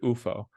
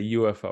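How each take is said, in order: First: It is said the way the European company insists on. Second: It is said the usual American way. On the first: This is how the European company wants it said. "We don't say U F O" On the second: This is how people in the US say it. "In the U S, we say U F O"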